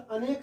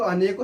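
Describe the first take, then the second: First: अनेक ending on a k; correct form. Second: अनेकों with a nasal "-on" ending; wrong plural form. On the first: Teacher giving students the right word, अनेक ending on k. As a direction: say अनेक with no vowel after the k. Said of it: "हमेशा अनेक सही होता है". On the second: Teacher showing students a wrong word, अनेकों ending in "-on". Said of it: "अनेकों शब्द गलत होता है". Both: Shown as a demonstration.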